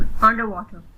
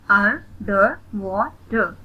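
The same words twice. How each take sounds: First: Said in the usual way. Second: "अंडरवाटर" slowly in four beats; split into syllables. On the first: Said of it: "read the word". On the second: Shown as a demonstration. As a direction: separate each syllable of "अंडरवाटर" with a gap. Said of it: "split in the syllables". ("अंडरवाटर" को धीरे, चार हिस्सों में)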